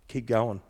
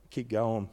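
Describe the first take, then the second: No difference in how they are said.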